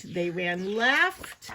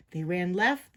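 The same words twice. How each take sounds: First: LEFT drawn out long and rising; slow, hanging rise on "left"; suspenseful stretch. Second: Said in the usual way. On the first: A narrator's reading. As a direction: hold "left" in suspense, sliding upward. Narrator stretches last word, suspense.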